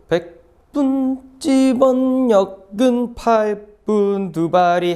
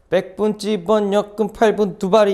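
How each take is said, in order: First: The words are read at an ordinary pace. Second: The words are rattled off quickly.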